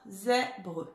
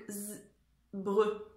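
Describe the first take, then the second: First: "Zèbre" with the open è filled in; son è rétabli. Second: "z-, bre" in two pieces with a gap for the vowel; son è manquant. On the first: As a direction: sound out ZÈ-bre with an open è. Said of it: "il manque le son est". (« Zèbre » articulé avec un è ouvert) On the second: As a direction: buzz the z, pause, then "bre". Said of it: "Qu'est-ce qui manque?". (« z-, bre » découpé, sans le son è) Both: Shown as a demonstration.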